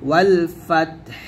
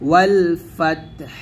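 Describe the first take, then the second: The two takes are said the same way.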